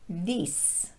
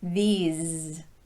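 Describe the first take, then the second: First: It ends with a voiceless s sound. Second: It ends with a voiced z sound. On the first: The speaker calls it wrong. "If you turn your voice off for that ending sound, your listener will hear this" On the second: The speaker calls it right. "you need to end with your voice on"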